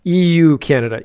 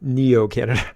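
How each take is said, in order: First: "E U Canada" with each letter E, U spelt out; clear E U. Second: "Neo Canada" run together as one word, nee-oh; misheard Neo. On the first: Host clarifying the clip's words, spelling E U. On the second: Host mocking his mishearing, Neo Canada. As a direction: say "Neo Canada" as a blended name. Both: Shown as a demonstration. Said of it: "not Neo Canada".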